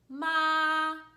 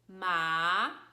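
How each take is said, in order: First: The pitch stays level throughout the syllable. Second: The pitch rises like a question. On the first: "our first tone was Bob" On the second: "It sounded like a question"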